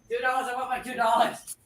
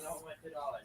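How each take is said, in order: First: It is said loudly. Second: It is said quietly.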